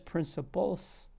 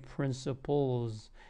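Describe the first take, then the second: First: The ending is a voiceless, hissing s sound. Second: The ending is a voiced, buzzing z sound. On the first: The speaker calls it wrong. "then you're not doing it right" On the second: The speaker calls it right. "You should say principles"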